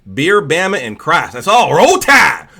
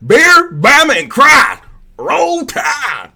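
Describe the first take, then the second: First: Loud Southern chant building to a holler; mock Southern accent. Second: Very high, full-volume Southern holler; mock Southern yell. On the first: Streamer making fun of Southern people, loud Southern accent. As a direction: start raised, finish yelling like a Bama fan. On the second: Streamer making fun of Southern people, shouted Southern accent. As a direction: scream it like a rabid Bama fan. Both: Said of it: "make fun of Southern people".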